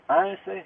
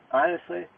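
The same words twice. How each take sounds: The two takes are said the same way.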